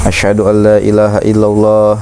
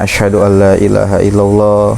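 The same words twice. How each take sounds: The two takes are said the same way.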